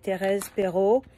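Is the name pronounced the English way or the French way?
French. The name is said with French pronunciation.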